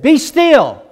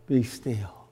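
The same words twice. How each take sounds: First: Much higher, louder stern command; Jesus ordering the waves, shouting. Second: Softer, hushed be still; preacher wishing for calm, hushed; quiet command. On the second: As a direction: say it gently, almost to yourself. Wishful retelling of Jesus' words. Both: Acted.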